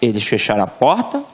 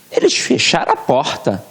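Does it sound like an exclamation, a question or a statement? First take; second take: statement; exclamation. First: It is said as a plain statement. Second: It is said as an emphatic exclamation.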